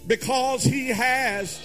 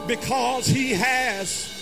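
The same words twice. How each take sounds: The two takes are said the same way.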